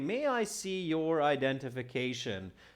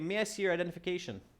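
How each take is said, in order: First: The sentence is spoken at a slow pace. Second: The sentence is spoken at a fast pace. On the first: "This is a bit of a slower native speaker" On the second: "Some native speakers are fast"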